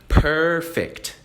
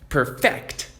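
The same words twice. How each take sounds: First: The stress is on the first syllable. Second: The stress is on the second syllable. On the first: It means flawless. "Porque eu estou dando ênfase no começo" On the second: It means to improve something. "ênfase no final"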